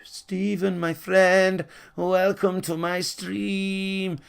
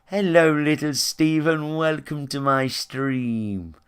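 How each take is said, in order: First: Higher, very slow syrupy welcome; mocking fake streamer. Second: Slow sing-song greeting, sweetly put on; mocking sugary streamer. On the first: Fake streamer welcoming a kid: high, very slow syrupy greeting. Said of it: "they're like". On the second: Streamer mocked for charming kids: slow sugary greeting. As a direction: parody a twee streamer charming kids, drawn out. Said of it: "poncy motherfuckers ... whistle charm little kids".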